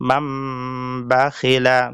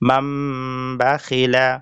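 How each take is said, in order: First: A nasal m sound is heard before the b. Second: A nasal m sound is heard before the b.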